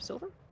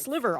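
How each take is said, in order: First: The name sounds like the word silver. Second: The name sounds like the word sliver. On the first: The speaker calls it wrong. "I've been saying it incorrectly this entire time" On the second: The speaker calls it right. "it's Sliver"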